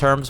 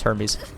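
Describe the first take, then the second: First: The name is said with one syllable. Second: The name is said with two syllables. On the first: The speaker calls it wrong. "I assumed it was Herms" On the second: The speaker calls it right. "but it's Hermes"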